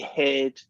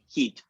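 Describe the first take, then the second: First: It has the short American vowel of bed. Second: It has a long Scottish vowel like bead.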